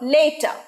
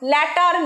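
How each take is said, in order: First: The first vowel sounds like the 'a' in day. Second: The first vowel sounds like the 'a' in cat. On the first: The speaker calls it right. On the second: The speaker calls it wrong. "ল্যাটার নয়"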